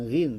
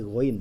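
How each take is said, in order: First: "ghin" said with a short i, the wrong way; wrong letter name. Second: "ghain" said with a throaty gh and an ain vowel; correct letter name. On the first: Teacher showing the common wrong name of the letter. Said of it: "Ya, bukan ghin". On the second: Teacher correcting the name of the Arabic letter. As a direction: pronounce "ghain" with a gargled gh sound. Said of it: "tapi ghain ya". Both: Shown as a demonstration.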